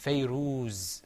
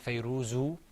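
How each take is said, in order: First: The name ends on the z, no vowel. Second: The name ends with an u vowel. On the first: The speaker calls it right. "Because it's Fayruz" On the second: The speaker calls it wrong. "We didn't say Fayruzu"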